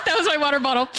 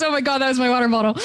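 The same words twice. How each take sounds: First: Said in the usual way. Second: Fast, laughing through the quote; huntsman quote, laughing. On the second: Retold or imitated. GM quoting the huntsman's startled outburst, laughing fast. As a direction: rattle it off while cracking up. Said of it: "The huntsman goes".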